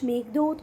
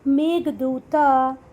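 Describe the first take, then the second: First: The name ends on a consonant, no final vowel. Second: The name ends with an added 'a' vowel. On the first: The speaker calls it right. "नाम तो नाम होते हैं बेटा" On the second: The speaker calls it wrong. "इसको आप लोग ऐसे भी पढ़ सकते हैं ... पर ये गलत है"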